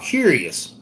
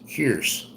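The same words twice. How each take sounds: First: Said in the usual way. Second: "curious" squeezed to two syllables, kyur-us; Southern pronunciation. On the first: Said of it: "It's not curious". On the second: Shown as a demonstration. Vlogger teaching viewers the Southern "curious", slow and soft. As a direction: clip "curious" down to kyurs, the old Southern way. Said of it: "It's not curious, it's curious".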